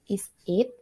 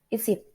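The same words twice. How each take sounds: First: The two words are said separately. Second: The two words are joined together. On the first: "boleh dibaca"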